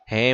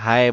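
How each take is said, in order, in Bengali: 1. স্বরধ্বনিটি একটি সাধারণ 'e' ধ্বনি। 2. স্বরধ্বনিটি একটি 'ai' গ্লাইড ধ্বনি। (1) "হে মানে হলো কলম কিসকা" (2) "অনেকে হায় বলে, হায় শব্দটা ভুল"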